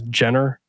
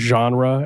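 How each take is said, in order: First: The word is said in a misread way. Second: The word has its usual pronunciation. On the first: The speaker calls it wrong. "as Jenner" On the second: The speaker calls it right. "he pronounced the word genre"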